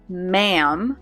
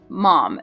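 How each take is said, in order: First: The vowel sounds like the one in 'hand'. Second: The vowel sounds like the one in 'mom'. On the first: "In American English, we say this word ma'am like hand, same sound" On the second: "When British people say this word, they say mom. It sounds like mom"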